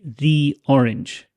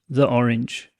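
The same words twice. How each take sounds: First: 'The' is said with a long 'thee' vowel. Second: 'The' is said with a short 'thuh' vowel. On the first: "I don't need to say the orange" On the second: "saying the orange doesn't feel too strange"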